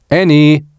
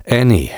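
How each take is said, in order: First: Loud, high calling voice; booming call. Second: Patient address, less raised than a call. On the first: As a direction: call her name through the house. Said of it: "ertönte die Stimme noch einmal". (laut und hoch durchs Haus gerufen) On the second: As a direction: say her name with patience. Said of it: "sagte er geduldig". (geduldig angesprochen) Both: A narrator's reading.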